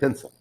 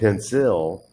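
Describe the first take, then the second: First: The second syllable is a quick, reduced schwa. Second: The second syllable has a full, clear I vowel. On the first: The speaker calls it right. "It's a very fast sound" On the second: The speaker calls it wrong. "I don't say pencil"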